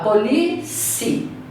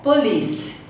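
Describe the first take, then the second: First: An extra vowel syllable is added at the end. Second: The word ends cleanly on a consonant sound. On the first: The speaker calls it wrong. "Ele fala police" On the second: The speaker calls it right. "a pronúncia correta é police"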